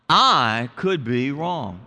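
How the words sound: It is said warmly, with a smile.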